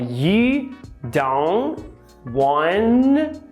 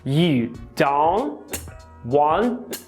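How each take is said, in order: First: The t after the n is dropped. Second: The t after the n is clearly pronounced. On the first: "os T's que vêm depois da letra N, eles são bem suscetíveis a serem apagados" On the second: "Veja que aqui a gente tem três T's, certo? Na escrita"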